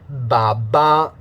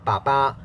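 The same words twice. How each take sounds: First: The b sounds are said with voicing. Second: The b sounds are said without voicing. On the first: "If I make it voiced using the English one"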